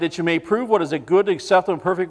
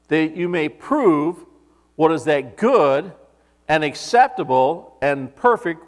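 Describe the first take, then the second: First: The words are read at a fast pace. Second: The words are read at a slow pace. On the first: "I read that quickly" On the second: "Now I'm going to go back and read it slowly"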